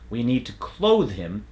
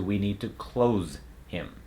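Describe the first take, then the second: First: "clothe" with a buzzing TH end; final voiced TH. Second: "close" ending in Z; Z substitution. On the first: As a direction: hold the TH in "clothe" before "him". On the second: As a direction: say "close" with Z where TH belongs. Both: Shown as a demonstration. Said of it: "as opposed to".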